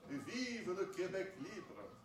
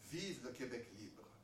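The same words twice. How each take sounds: First: It is said in a grand, old-fashioned French manner. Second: It is said in the speaker's own plain voice.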